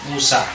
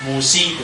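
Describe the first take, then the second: First: The name ends in a long a. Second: The name ends in an i sound. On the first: The speaker calls it right. "tetap dia Musa" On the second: The speaker calls it wrong. "Tidak boleh musi"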